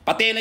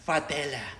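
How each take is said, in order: First: The word begins with a P sound. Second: The word begins with an F sound. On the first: The speaker calls it right. "Patela yun, hindi fatela" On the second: The speaker calls it wrong. "Letter F talaga, fatela"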